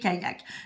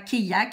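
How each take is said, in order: First: The y sounds like a single y, ka-yak. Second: The y sounds like two i's, kai-yak. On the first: The speaker calls it right. "mais kayak" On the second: The speaker calls it wrong. "D'après ce que je viens de vous dire, il faudrait dire kayak... on ne dit pas kayak"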